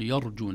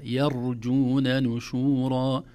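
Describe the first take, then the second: First: يرجون said quickly with a dark first syllable; heavy Y mistake. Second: يرجون نشورا recited slowly with a thin "ya"; light Y. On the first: Teacher showing the easy slip, Y thickened. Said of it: "أسهل على اللسان يقول". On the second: Teacher correcting the slip, light Y in slow recitation. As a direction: keep the first syllable of يرجون light, drawn out. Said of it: "نرقق الياء". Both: Shown as a demonstration.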